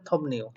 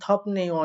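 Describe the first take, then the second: First: The consonant before 'ne' is an M sound. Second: The consonant before 'ne' is a P sound. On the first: The speaker calls it right. "বিউটার উচ্চারণ করছে ম, তাই হবে থমনেও" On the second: The speaker calls it wrong. "এই বিউটটাকে ম না পড়ে থাকেন তাহলে তো আপনারা সমস্যায় পড়ে যাবেন"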